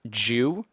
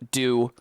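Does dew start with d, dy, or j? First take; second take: j; d. First: It begins with a j sound. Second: It begins with a plain d sound. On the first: "the D gets turned into a J" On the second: "the y has just been removed"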